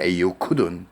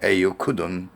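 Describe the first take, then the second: The two takes are said the same way.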